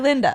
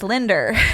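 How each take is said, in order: First: The name ends in a plain vowel. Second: The name ends with an added r sound.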